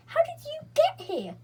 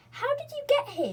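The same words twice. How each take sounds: First: Even higher, loud excited cry; crying out together. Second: High, loud astonished voice; can't believe they're here; amazed question. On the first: Beth and Franny cry out to Joe, high excited. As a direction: shout it back in joy. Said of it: "cried Beth and". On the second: Joe asks his sisters, high and amazed. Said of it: "he asked". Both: A narrator's reading.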